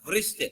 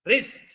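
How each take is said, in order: First: It begins with a W-like sound before R. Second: It begins directly with the R sound. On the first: The speaker calls it wrong. "చాలా మంది పిల్లలు వృష్ట్ అంటుంటారు" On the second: The speaker calls it right. "it is a wrist"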